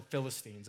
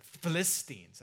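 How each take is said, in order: First: Put-on Philistines said the common way, stress on the first syllable, FIL-is-teens; plain Philistines with first-syllable stress; usual pronunciation. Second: Philistines with the stress pushed onto the second syllable, fi-LIS-tines; professor's odd stress. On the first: Shown as a demonstration. Pastor giving his church's plain way of saying Philistines. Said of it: "as far as here at Cross Church, they're called the Philistines".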